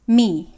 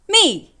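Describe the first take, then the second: First: The syllable is said in the third tone. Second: The syllable is said in the fourth tone. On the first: "This me right here is the third tone in Mandarin Chinese" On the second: "the fourth tone in Chinese goes me"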